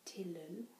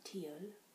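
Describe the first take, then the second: First: It is said in an English accent, L sounded. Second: It is said in a French accent, L silent. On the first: "in an English um, accent, I would pronounce that" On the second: "they don't pronounce these L's, so it comes out"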